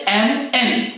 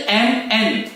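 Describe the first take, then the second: No difference in how they are said.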